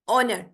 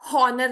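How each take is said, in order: First: The word starts directly with a vowel. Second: The word starts with an h sound. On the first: The speaker calls it right. "H यहाँ पे silent है" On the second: The speaker calls it wrong. "यहाँ पे हॉनर नहीं है ये"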